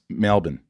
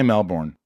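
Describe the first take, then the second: First: It is said with an Australian pronunciation. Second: It is said with an American pronunciation. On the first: The speaker calls it right. "you want to learn an Australian accent, here's what you do" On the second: The speaker calls it wrong. "Don't say Melbourne"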